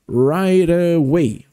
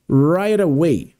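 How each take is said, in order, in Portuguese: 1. As palavras se juntam rápido, com um T suavizado. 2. As palavras se juntam rápido, com um T suavizado.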